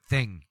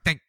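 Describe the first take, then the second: First: The word finishes smoothly, like a complete ending. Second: The word is cut off abruptly at the end. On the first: The thought is finished. The speaker calls it right. "there you went thing, and that ends" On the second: The thought seems to break off unfinished. The speaker calls it wrong. "and it just cut off"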